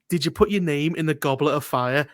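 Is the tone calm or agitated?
calm. It is asked in a calm voice.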